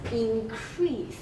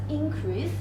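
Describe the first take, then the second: First: Increase stressed on the second syllable, CREASE; verb stress. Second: Increase stressed on the first syllable, IN; noun stress. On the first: Teacher contrasting the verb increase, second syllable stressed. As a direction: hold back IN, land on CREASE in increase. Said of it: "it is a verb". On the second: Teacher contrasting the noun increase, first syllable stressed. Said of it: "it is a noun". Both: Shown as a demonstration.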